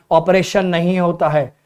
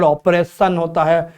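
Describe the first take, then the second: First: ऑपरेशन with a long "ay": "op-RAY-shun"; teacher's disputed pronunciation. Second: Oppression, with a double-s sound; pupils' corrected pronunciation. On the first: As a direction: imitate a pupil quoting ऑपरेशन as "op-RAY-shun". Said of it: "I pronounce as operation". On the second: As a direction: imitate a pupil saying ऑपरेशन as "op-PRESS-un". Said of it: "बहुत सारे बच्चों को इसमें भी दिख रहा है". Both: Retold or imitated.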